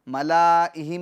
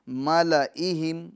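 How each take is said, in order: First: The vowel after the 'l' is drawn out long. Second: The vowel after the 'l' is kept short. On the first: The speaker calls it wrong. "मला के जो लाम अलिफ़ हैं इसके अलिफ़ को हम नहीं पढ़ेंगे। ... मलाइहिम नहीं" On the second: The speaker calls it right. "बल्कि मलइहिम"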